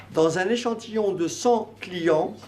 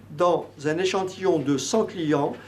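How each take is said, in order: The two takes are said the same way.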